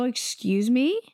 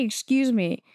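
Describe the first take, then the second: First: "Excuse me?" rising on ME like a question; questioning retort. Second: "Excuse me." falling at the end; retold retort. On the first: Retold or imitated. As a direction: ask "Excuse me?" in disbelief, lifting the end. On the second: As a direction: say "Excuse me." as a firm statement, ending down. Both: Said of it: "I actually say".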